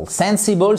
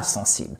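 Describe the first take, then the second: First: "Sensible" said as English SEN-si-bol, higher; English pronunciation. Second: "sensible" said as French, nasal first vowel, silent ending; French pronunciation. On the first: Teacher contrasting English word with French false friend, English pronunciation. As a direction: say "Sensible" the English way, stress up front. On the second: Teacher ruling out the French false friend, French pronunciation. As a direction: say "sensible" the French way, san-SEEBL. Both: Shown as a demonstration. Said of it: "ce n'est pas sensible".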